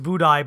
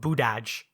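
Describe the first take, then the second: First: The name is said in its original form. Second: The name is said in an altered, personal form. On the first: "I know it's Budaj" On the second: "but I will always call him Budaj"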